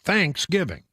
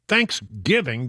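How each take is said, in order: First: The stress is on the syllable 'thanks'. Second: The stress is on the syllable 'giv'. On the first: "You're giving thanks, so it's Thanksgiving" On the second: "Thanksgiving just doesn't sound right to me"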